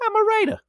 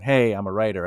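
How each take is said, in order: First: Very high, silly put-on voice; put-on proclamation. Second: Said in the usual way. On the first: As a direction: declare it in a comic falsetto. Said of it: "Just say". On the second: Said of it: "Instead of you going".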